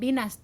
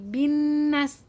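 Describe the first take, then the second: First: The n sound is short, not held. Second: The n sound is held and pressed. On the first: The speaker calls it wrong. "bukan binas" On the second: The speaker calls it right. "tapi binnas"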